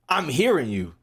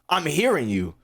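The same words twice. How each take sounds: The two takes are said the same way.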